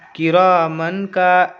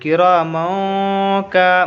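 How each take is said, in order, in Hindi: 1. "n" की ध्वनि पूरी तरह और साफ़ बोली जाती है। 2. "n" की ध्वनि छिपी होती है, नाक में रोकी जाती है। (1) "ऐसे पढ़ेंगे नहीं" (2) "थोड़ा सा नाक में आवाज़ को रोकेंगे"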